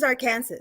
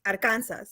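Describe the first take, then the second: First: "Arkansas" as ar-KAN-sas, English vowels; "Arkansas" said as it is spelled; spelling pronunciation. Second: "Arkansas" in Spanish, ar-KAHN-sas; lower, Spanish-accented "Arkansas"; Spanish pronunciation. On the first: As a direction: say "Arkansas" with the last S sounded. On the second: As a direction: say "Arkansas" with tapped R and open A. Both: Shown as a demonstration. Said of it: "in Spanish is Arkansas".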